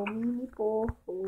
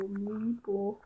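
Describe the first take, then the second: First: Slow, savoring the words; drawn out. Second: Said in the usual way. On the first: Shown as a demonstration. Naming the piglet, slowly drawn out. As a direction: stretch out mini porco fondly. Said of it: "repeats the name slowly". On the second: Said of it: "repeats again plainly".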